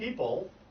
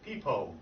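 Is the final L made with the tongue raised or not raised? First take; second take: raised; not raised. First: The final L has the tongue raised to the roof. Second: The final L has no raised tongue contact. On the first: The speaker calls it right. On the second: The speaker calls it wrong.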